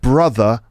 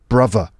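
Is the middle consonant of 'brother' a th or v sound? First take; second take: th; v. First: The middle consonant is a th sound. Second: The middle consonant is a v sound.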